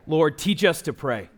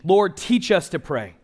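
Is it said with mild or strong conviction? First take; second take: mild; strong. First: It is said plainly, with mild force. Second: It is said with stronger force and conviction.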